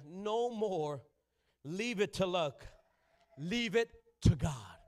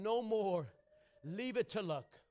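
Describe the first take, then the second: First: Each word drawn out, slow; slow deliberate preaching; slow emphatic proclamation. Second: Said in the usual way. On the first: Shown as a demonstration. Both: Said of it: "I'll say it again".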